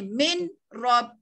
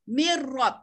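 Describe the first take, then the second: First: The n is sounded clearly before the r. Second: The n merges into the following r sound. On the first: The speaker calls it wrong. "tak adalah bunyi min rob. Bukan gitu ya" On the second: The speaker calls it right. "seolah-olah kita hazafkan dia"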